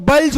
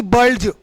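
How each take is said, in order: First: Silent d in बल्ज; correct pronunciation demo. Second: D sounded in बल्ज; wrong pronunciation demo. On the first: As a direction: say बल्ज as balj. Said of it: "इसको बल्ज बोलेंगे". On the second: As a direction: say बल्ज as bald-j. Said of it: "नहीं कि". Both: Shown as a demonstration.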